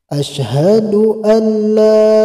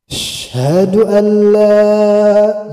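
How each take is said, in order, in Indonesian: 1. Suku kata pembuka diucapkan dengan jelas dan utuh. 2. Vokal pembuka dihilangkan, hanya tersisa sh. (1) "Jadi agak jelas dibacanya" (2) "huruf alifnya hilang"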